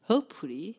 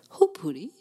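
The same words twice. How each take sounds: First: Hopefully? lifted at the end as a question; rising question. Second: A firmer, louder Hopefully? with no rise; pressing Hopefully? said louder and flat; louder check. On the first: Host asks Tom again, with a rising question. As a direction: ask Hopefully? with an upward tune. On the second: Host asks Tom about the stream, louder and flat. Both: Real, not acted.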